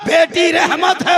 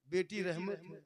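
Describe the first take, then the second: First: Loud, high, slow sermon cry; preaching at full force. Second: Said in the usual way. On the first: Acted. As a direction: proclaim "बेटी रहमत है" slowly, high and loud.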